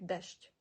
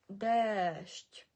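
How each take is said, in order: First: Дещ said quickly with a short "e"; wrong short vowel. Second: Дещ with the "e" held long, "deeesht"; long vowel. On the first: Teacher showing what not to say, дещ short. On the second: Teacher correcting learners, дещ with long drawn vowel. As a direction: stretch the vowel of дещ right out. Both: Shown as a demonstration. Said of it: "Не будемо це читати як".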